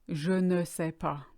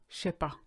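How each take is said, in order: First: Every word is said, including ne. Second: The ne is dropped and the words run together. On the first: "It's actually short for je ne sais pas" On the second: "the short version"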